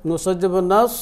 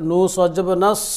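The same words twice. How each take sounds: The two takes are said the same way.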